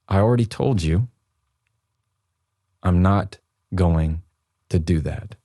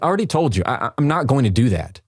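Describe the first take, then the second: First: It is said slowly and calmly, with control. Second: It is said quickly, as a hurried reaction. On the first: The speaker is in control of the moment. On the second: The speaker is reacting without thinking.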